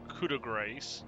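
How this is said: It is said with an English accent. "I expect you to like have an English accent"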